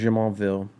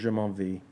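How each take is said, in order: First: The name is said with English pronunciation. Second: The name is said with French pronunciation. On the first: "English pronunciation" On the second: "French pronunciation"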